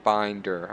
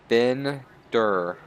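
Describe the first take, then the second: First: The first vowel sounds like the one in 'bin'. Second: The first vowel sounds like the one in 'bed'. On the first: The speaker calls it wrong. "I keep pronouncing it Binder, my mistake" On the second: The speaker calls it right. "not Binder"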